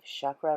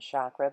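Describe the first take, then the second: First: The word is said with Sanskrit-style pronunciation. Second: The word is said with anglicized pronunciation. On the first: This is the original way to say it. The speaker calls it right. "it's pronounced actually, I believe, chakra" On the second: This is how it changed in English. The speaker calls it wrong. "rather than chakra, but you know, we change things around when we move into the realm of English"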